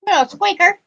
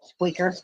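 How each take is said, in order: First: "squeaker" said high and louder; stress on squeaker. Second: Said in the usual way. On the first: Shown as a demonstration.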